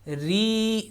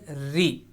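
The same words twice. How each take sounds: First: The vowel is stretched long. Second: The vowel is kept short. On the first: The speaker calls it wrong. "री नहीं करेंगे" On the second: The speaker calls it right. "बगैर स्ट्रेच किए"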